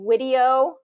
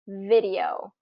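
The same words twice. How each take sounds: First: The word begins with a W sound. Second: The word begins with a V sound. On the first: The speaker calls it wrong. "video with a W" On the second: The speaker calls it right. "instead of video"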